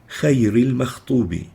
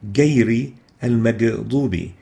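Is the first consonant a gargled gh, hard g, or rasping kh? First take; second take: rasping kh; hard g. First: The consonant is a rasping kh from the upper throat. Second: The consonant is a hard g like English. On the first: "mistakenly exchanged with the kha to sound like" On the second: "mistakenly pronounced as"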